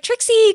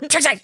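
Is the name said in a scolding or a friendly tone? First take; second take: friendly; scolding. First: The name is said in a friendly tone. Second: The name is said in a scolding tone.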